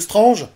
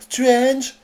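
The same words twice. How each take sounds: First: The word is pronounced the French way. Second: The word is pronounced the English way. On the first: The speaker calls it right. "au lieu de Strange" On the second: The speaker calls it wrong. "Les mêmes qui prononcent Strange"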